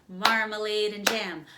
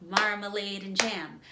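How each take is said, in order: The two takes are said the same way.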